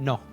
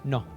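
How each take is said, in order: First: The vowel is a pure, steady o. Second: The same.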